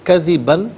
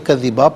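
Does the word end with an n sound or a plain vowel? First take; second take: n sound; vowel. First: The word ends with an n sound. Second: The word ends on a long a vowel. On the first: The reciter continues without stopping. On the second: The reciter stops at this word.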